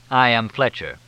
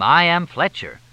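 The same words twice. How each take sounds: First: Self-important, loud name announcement; a touch of grandeur; pompous announcement. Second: High, loud mimicry of a pompous introduction; mock someone grandly announcing their name; mocking, self-important imitation; mock-pompous announcement. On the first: Acted. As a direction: announce yourself with mild pomposity. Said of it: "Why so pompous about it?". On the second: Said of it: "You announced your name".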